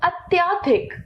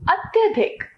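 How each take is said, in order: First: Long आ after त्य in अत्याधिक; mispronounced अत्याधिक. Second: Short अ after त्य in अत्यधिक; correct अत्यधिक. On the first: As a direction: say अत्याधिक as "at-yaa-dhik". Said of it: "अशुद्ध". (अत्याधिक, अशुद्ध रूप में लंबे आ से) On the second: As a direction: say अत्यधिक as "at-ya-dhik". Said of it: "इसका शुद्ध है". (अत्यधिक का शुद्ध उच्चारण, छोटे अ से) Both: Shown as a demonstration.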